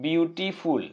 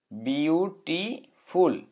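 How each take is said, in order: First: Said in the usual way. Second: beautiful slowly split into বিউ, টি, ফুল; syllable by syllable. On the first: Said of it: "একটা ওয়ার্ডকে উচ্চারণ করার সময়". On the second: Shown as a demonstration. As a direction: break beautiful into separate, drawn-out syllables with pauses. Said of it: "দুইবারে উচ্চারণ করতে হয়". (Beautiful ধীরে ধীরে ভেঙে ভেঙে উচ্চারণ)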